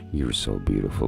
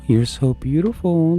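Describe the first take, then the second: First: It is said in a normal, lower-pitched voice. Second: It is said in a raised, high-pitched voice. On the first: The speaker calls it wrong. "if I go to my dog and I'm like" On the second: The speaker calls it right. "An uptone to your voice"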